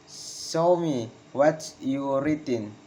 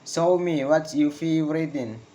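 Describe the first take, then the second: First: Slow, spaced words, "written" falling; slow falling intonation. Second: Connected command, falling on "written"; falling intonation. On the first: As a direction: break the request up for learners. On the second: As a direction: model the request, "written" dropping. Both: Shown as a demonstration. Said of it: "Failing intonation in comments".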